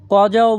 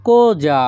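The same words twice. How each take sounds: First: "কজাও" with an open o as in "caught"; open-o variant. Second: "cosa" with a closed o and a j sound for the s; closed-o pronunciation. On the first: Teacher offers learners another pronunciation, "কজাও" with open first o. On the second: Teacher models cosa for Bengali learners, said "ko-ja" with closed o. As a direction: say "cosa" as "ko-ja", with a rounded o. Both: Shown as a demonstration. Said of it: "বা আপনারা কজাও বলতে পারেন".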